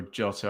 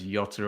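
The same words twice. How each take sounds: First: Jota said as "JOH-ta"; hard J in Jota. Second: Jota said as "YOH-ta"; Y sound in Jota. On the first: Commentator offering the other name version, Jota with a hard J. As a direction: start Jota with an English J, as in "jot". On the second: Commentator unsure of the player's name, Jota with a Y sound. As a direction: start Jota with a soft Y, as in "yacht". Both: Shown as a demonstration. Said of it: "I don't know if it's Jota or Jota".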